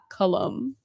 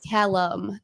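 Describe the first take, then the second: First: The first vowel sounds like the one in cut. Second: The first vowel sounds like the one in cat. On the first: The speaker calls it wrong. "not Cullum" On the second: The speaker calls it right. "It's Callum"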